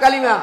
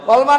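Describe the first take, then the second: First: The word is said with three syllables. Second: The word is said with two syllables. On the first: The speaker calls it right. "না কালিমা" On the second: The speaker calls it wrong. "কলমা না"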